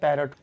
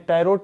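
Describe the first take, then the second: First: The second syllable has a short reduced vowel. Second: The second syllable has a full 'o' vowel. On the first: The speaker calls it right. "होता है उच्चारण" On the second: The speaker calls it wrong. "यहाँ पे पैरोट बोलते हैं"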